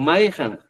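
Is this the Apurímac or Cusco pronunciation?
Apurímac. It is said the Apurímac way, ending -jan.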